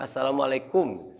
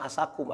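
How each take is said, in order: First: The greeting is said clearly with every syllable. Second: The greeting is slurred into a short clipped form. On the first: The speaker calls it right. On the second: The speaker calls it wrong. "mengucapkannya salah"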